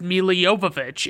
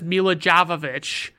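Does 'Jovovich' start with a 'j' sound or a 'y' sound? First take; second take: y sound; j sound. First: Jovovich starts with a 'y' sound. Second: Jovovich starts with a 'j' sound. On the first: This is how the actress says her own name. The speaker calls it right. "But she says" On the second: This is how most people say the name. The speaker calls it wrong. "and everybody says Mila Jovovich, and that's clearly just not what it is"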